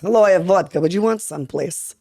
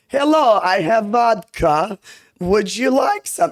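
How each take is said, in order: First: Put-on Russian accent. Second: Put-on high, slow, clumsy Russian accent; bad Russian accent. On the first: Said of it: "Except I don't know if, it's, like, you know, mixed in". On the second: Showing her early videos, in a bad Russian accent. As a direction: offer the vodka in a shaky Russian accent. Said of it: "If you go back to my first videos".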